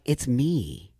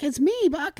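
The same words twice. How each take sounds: First: Said in the usual way. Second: Squeaky high cracking falsetto; imitated puberty voice. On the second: Telling mom on the phone who is calling, cracking high. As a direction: mimic a voice breaking way up high. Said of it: "your voice starts to sound like this".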